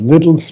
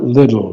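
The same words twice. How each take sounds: First: The T sounds are crisply and clearly pronounced. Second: The T sounds are softened, not clearly pronounced. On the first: The speaker calls it right. "Pronounce the T's" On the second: The speaker calls it wrong. "It's not little, that's poor English"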